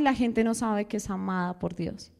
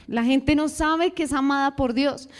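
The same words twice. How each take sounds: First: Hushed lament over people unaware of God's love; soft, low, earnest take. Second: Said in the usual way. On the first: Acted. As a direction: lower and softer, inward and sincere. Repeated, first take.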